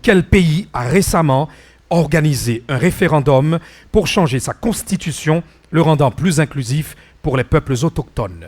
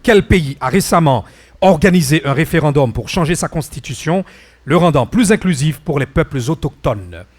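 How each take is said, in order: Both takes have the same delivery.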